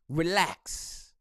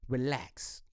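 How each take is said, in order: First: Said in the usual way. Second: Soft relax. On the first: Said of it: "repeats relax plainly". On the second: Shown as a demonstration. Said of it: "second relax quieter, far".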